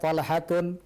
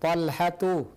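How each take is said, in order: First: The name ends with an added n sound. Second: The name ends on a vowel without n. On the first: The speaker calls it wrong. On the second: The speaker calls it right.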